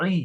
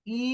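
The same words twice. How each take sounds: First: "ই" squeezed from the throat; throat-pressed sound. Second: Said in the usual way. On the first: Shown as a demonstration. Teacher contrasting similar letters for students, throat-squeezed "ই". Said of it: "এটি গলায় চাপ দিয়ে উচ্চারণ হয়". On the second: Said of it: "এটি স্বাভাবিক normal".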